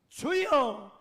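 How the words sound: It is cried out with desperate urgency.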